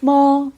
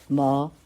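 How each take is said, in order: First: The pitch stays high and level. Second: The pitch rises from middle to high.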